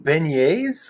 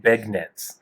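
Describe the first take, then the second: First: The g is silent in the middle. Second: The g is sounded in the middle. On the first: The speaker calls it right. "Do you mean beignets?" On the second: The speaker calls it wrong. "he just doesn't know how to pronounce it"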